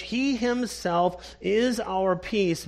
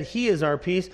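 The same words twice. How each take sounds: First: Slow, weighted he himself; emphatic slow stress on himself. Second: Said in the usual way. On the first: Shown as a demonstration. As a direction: press on he himself, unhurried. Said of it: "he's emphatic in the language". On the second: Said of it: "He could have just said".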